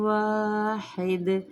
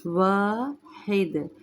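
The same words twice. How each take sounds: First: वाहिद said with an incorrect ending; wrong wahid. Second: Proper Arabic वाहिद; correct wahid. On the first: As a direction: read वाहिद the mistaken way. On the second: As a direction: stretch वाहिद slowly and correctly. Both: Shown as a demonstration. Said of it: "इसको वाहिद नहीं पढ़ना".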